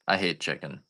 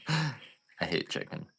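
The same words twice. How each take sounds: First: Said in the usual way. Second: Slow, soft, under the breath; slow quiet growl. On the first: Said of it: "repeats line, then slower quiet take". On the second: Shown as a demonstration. Repeating his hatred of chickens to viewers, slow and soft. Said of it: "repeats line in slower quiet take".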